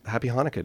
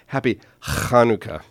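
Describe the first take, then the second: First: Hanukkah begins with a plain, soft h sound. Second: Hanukkah begins with a harsh, throaty scraping sound.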